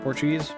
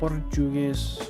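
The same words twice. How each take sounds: First: It is said with an English accent. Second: It is said with a Portuguese accent. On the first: The speaker calls it wrong. "Not Portuguese" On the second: The speaker calls it right. "That's how you'd say it with the proper accent"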